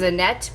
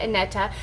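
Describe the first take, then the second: First: The name is said with two syllables. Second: The name is said with three syllables. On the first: This is the common way people say it. The speaker calls it wrong. "everybody just says Annette" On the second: This is how the owner says the name. The speaker calls it right. "she actually pronounces it Aneta"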